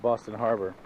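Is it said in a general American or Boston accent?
general American. It is said in the speaker's usual accent.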